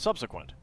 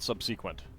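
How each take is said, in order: First: The stress falls on the first syllable. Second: The stress falls on a later syllable. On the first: This is the common American pronunciation. "American English tends to emphasize the the first syllable" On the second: This is a more British pronunciation. "I think that might be a more British way of saying it"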